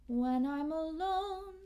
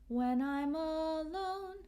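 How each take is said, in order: No difference in how they are said.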